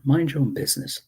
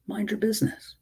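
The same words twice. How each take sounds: First: Said in the usual way. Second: Sharp high repeat. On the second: Real, not acted. Repeats the command to critics.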